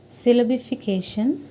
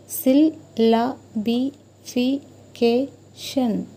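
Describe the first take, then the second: First: Said in the usual way. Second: "syllabification" very slowly, each syllable set apart: syl-la-bi-fi-ca-tion. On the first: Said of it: "if you pronounce the word". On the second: Shown as a demonstration. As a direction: stretch "syllabification" out into its separate syllables. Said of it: "you can get sounds that are".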